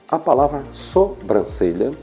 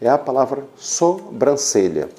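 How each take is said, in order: No difference in how they are said.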